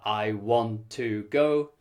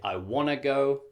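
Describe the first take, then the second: First: Want to is said fully with both words. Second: Want to is reduced to wanna.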